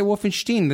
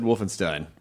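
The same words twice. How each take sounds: First: Wolfenstein ending in "shteen"; Germanized "shteen" ending on Wolfenstein; German-style pronunciation. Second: Wolfenstein ending like "stine"; Wolfenstein, ending rhymed with "line"; English pronunciation. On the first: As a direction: say Wolfenstein with sh and long ee. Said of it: "Isn't that how the Germans say it?". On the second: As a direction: say Wolfenstein with a plain s and long i. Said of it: "I always said Wolfenstein". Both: Shown as a demonstration.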